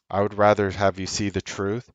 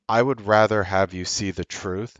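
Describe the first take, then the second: No difference in how they are said.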